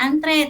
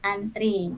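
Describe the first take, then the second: First: The word ends with an 'e' vowel. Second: The word ends with an 'i' vowel. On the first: This is the standard form. The speaker calls it right. "Yang bakunya antre" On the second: This is the non-standard everyday form. The speaker calls it wrong. "tapi kita sering menggunakan an antri"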